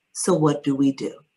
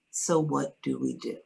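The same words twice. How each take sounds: First: An even, matter-of-fact question; calmly. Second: Soft, composed and simple question; calmly. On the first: Patient hearing her leukemia diagnosis, calmly asking doctors what next. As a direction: stay composed, no panic in it. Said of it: "I just calmly said". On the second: Retelling how she answered the diagnosis, softly calm. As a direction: keep it quiet and steady, no fear. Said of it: "I simply said". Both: Retold or imitated.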